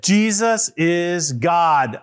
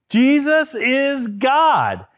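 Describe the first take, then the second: First: Said in the usual way. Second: Higher, slow, emphatic proclamation; louder declaration. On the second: Shown as a demonstration. Leading the children to say it louder, emphatic declaration. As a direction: say it louder, stretching each word. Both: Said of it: "you can say it louder than that".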